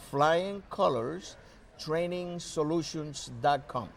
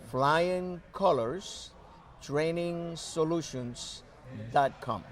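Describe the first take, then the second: First: It is said at normal conversational speed. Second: It is said slowly and deliberately.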